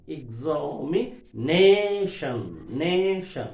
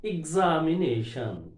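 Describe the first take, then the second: First: "examination" drawn out slowly, leaning on "nation"; stress on NA. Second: Said in the usual way. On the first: Shown as a demonstration. Lecturer showing where stress falls, "examination" slow with strong NA. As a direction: stretch and punch the "na" in "examination". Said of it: "N above we have to stress". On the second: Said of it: "For example".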